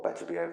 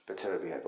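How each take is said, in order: First: "Beterbiev" with no h, ending in "ee-ev"; alternative pronunciation. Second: "Beterbiev" with an h-like glide, ending like "behave"; alternative pronunciation. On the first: Boxing coach offering another version of a fighter's name, "Beterbiev" without the h. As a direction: say "Beterbiev" roughly as "betta-bee-AYV". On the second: Boxing coach trying a fighter's name, "Beterbiev" ending like "behave". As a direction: say "Beterbiev" roughly as "better-be-HAVE". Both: Shown as a demonstration. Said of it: "however you want to say it".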